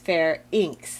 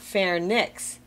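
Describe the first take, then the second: First: The n comes after the vowel: fair-inks. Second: The n comes before the vowel: far-nix. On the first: The speaker calls it right. "it's pharynx" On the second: The speaker calls it wrong. "It's not pharynx"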